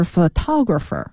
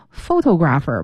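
First: Photographer said pho-TO-grapher, TO stressed; stress on second syllable. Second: Photographer said as PHO-to-grapher, first syllable stressed; wrongly stressed first syllable. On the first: Teacher correcting a common mistake, photographer stressed on TO. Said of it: "不对，是photographer". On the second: Teacher imitating confused learners, photographer with stress shifted onto PHO. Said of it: "老有人觉得". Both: Shown as a demonstration.

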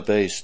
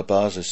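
First: "Base" said the English way, like "bays". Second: "Basis" said the German way, "BAH-zis". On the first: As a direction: say "Base" as the English word base, one syllable. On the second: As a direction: correct to the German "Basis", stress on the first syllable. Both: Shown as a demonstration. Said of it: "zu seiner Basis".

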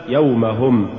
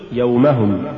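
First: يومهم as يومَ + هم, two words; separated form. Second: يومهم as one unbroken word; joined form. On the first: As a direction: give هم its own weight in يومهم. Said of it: "والمفصولة". («يومهم» مفصولة) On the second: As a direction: bind هم onto يوم in يومهم. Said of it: "الموصولة". («يومهم» موصولة) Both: Shown as a demonstration.

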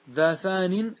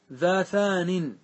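First: Said in the usual way. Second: Drawn-out "ذا ثان", each word stretched very slowly; chanted slowly as verse; slow recited verse. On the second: Shown as a demonstration.

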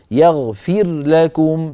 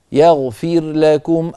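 First: يغفر لكم slowly, with the ra blended into the lam; merged ra and lam. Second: يغفر لكم slowly, with the ra and the lam kept apart; separated ra and lam. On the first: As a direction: run the ra of يغفر into لكم, the wrong way. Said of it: "افصل صوت الراء عن صوت اللام". (إدغام الراء في اللام خطأً) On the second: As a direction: keep the ra of يغفر distinct from لكم. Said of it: "الراء لوحد واللام لوحد". (الراء وحدها واللام وحدها) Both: Shown as a demonstration.

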